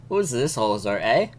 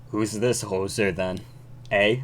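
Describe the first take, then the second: First: Badly faked Canadian with rising "eh"; retry a light Canadian accent; half-hearted Canadian accent; attempted Canadian accent. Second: Lower-pitched, badly faked Canadian accent; a hint of stock Canadian accent; attempted Canadian accent. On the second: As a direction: try a half-hearted Canadian judge. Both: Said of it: "how to do a Canadian accent".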